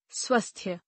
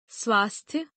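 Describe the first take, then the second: First: स्वस्थ्य with short vowel, "swasthya"; mispronounced. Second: Said in the usual way. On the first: Shown as a demonstration. Teacher showing a vowel error, mispronounced with short a. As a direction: say स्वस्थ्य with uh instead of long aa. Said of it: "अशुद्ध". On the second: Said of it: "शुद्ध".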